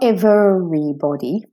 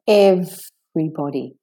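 First: The word is said with four syllables. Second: The word is said with three syllables. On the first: The speaker calls it wrong. "And it's not everybody" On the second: The speaker calls it right. "It has a silent syllable in it"

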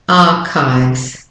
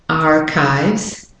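First: The R sound after the vowel is dropped. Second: The R sound after the vowel is pronounced. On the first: "British and Australian" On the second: "if you're doing the American accent, you have to put the R in"

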